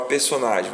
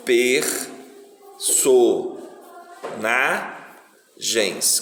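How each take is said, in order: First: Said in the usual way. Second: PERSONAGENS very slowly as per, so, na, gens, with a clear pause after each; teacher counting out the pieces of "Personagens", one at a time; syllable by syllable. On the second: Shown as a demonstration. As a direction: break "Personagens" into four separate syllables. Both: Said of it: "quantas vezes eu abro a boca pra falar personagem".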